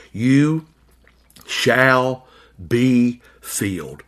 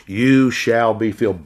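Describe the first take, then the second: First: Each word set apart by long pauses, be filled slowed right down; drawn-out promise. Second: Said in the usual way. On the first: Acted. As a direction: let "You... shall... be filled" hang word by word. Preacher dwells on Christ's promise.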